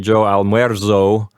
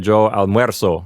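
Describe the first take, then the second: First: The z is a buzzing z sound. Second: The z is a hissing s sound. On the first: The speaker calls it wrong. "we're not going to say" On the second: The speaker calls it right. "is going to sound like a hissing S sound"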